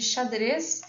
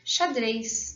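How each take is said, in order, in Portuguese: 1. A última sílaba tem vogal simples, sem semivogal. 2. A última sílaba tem ditongo com semivogal. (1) "em vez de xadrez" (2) "geralmente aqui vai haver uma ditongação"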